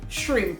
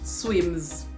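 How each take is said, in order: First: Shrimp is pronounced the standard way. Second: Shrimp is pronounced the Jamaican way, like swims. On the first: The speaker calls it right. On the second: The speaker calls it wrong.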